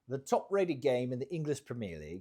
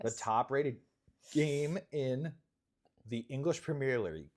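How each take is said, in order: First: It is said in a put-on British accent. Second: It is said in the speaker's usual accent.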